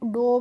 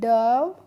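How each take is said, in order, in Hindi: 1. स्वर की आवाज़ 'oh' जैसी है। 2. स्वर की आवाज़ 'uh' जैसी है।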